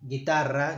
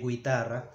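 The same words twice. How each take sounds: First: The u after the g is silent. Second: The u after the g is pronounced. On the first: The speaker calls it right. "Here we don't pronounce the U" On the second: The speaker calls it wrong. "we don't say guitarra"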